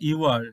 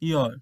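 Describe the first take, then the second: First: Two separate words are said in full. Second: The words merge into one contracted syllable.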